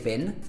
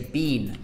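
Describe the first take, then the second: First: It is said in an American accent. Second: It is said in a British accent. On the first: "Americans would say been" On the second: "We say been"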